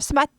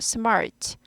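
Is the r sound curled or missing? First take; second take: missing; curled. First: The word has no curled r sound. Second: The word has a curled r sound. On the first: The speaker calls it wrong. "스마트 아니고" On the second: The speaker calls it right. "R이 있으니까 구부리죠"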